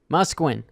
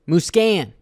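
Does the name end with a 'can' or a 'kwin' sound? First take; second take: kwin; can. First: The name ends with a 'kwin' sound. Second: The name ends with a 'can' sound. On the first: This may be the correct pronunciation. "I know the correct pronunciation might be Musquin" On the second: This is how the speaker has always said it. "I- I've always said Muscan"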